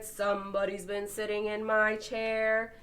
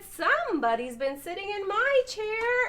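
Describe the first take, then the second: First: It is said in a deep, big voice. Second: It is said in a high, tiny voice.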